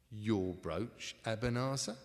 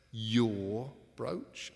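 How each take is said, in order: First: Said in the usual way. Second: Brooch punched with a rising tune; stress on brooch. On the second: Acted. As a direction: lean hard on brooch, voice rising.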